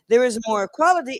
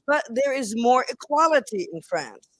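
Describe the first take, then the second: First: More equality said again louder and quicker; emphatic repeat. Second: Said in the usual way. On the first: Shown as a demonstration. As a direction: drive home the words more equality.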